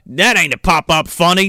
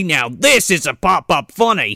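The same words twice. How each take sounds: First: A hint of Australian, leaning on "That"; Paul Hogan impression. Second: Put-on light Australian accent with the stress on "this"; a hint of Australian, proud stress on "this"; Paul Hogan impression. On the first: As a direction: dismiss it Crocodile Dundee style and hit "That". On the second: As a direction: show off the bigger one and punch "this". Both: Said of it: "It's Paul Hogan".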